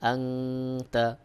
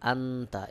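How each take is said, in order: First: The n is hidden in a nasal hum. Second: The n is said as a plain n.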